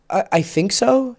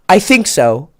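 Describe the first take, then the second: First: It is said haltingly, with a repeated start. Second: It is said smoothly and firmly, without stumbling. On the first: The speaker is unsure of their understanding. The speaker calls it wrong. "So don't say, uh" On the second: The speaker owns their current level of understanding. The speaker calls it right. "You can say, you know what, man?"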